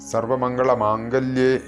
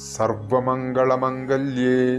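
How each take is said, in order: First: The second word begins with a long vowel. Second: The second word begins with a short vowel. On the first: The speaker calls it wrong. "ഇവിടെ ഈ മന്ത്രം തെറ്റിച്ച് ചൊല്ലാറുണ്ട്" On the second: The speaker calls it right. "ഒന്നുകൂടി ഞാൻ ചൊല്ലാം"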